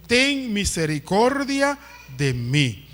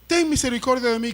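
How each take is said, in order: First: Slow quoted plea. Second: Quick quoted plea. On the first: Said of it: "qué fue lo que dijo". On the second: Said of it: "Él le dijo". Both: Retold or imitated.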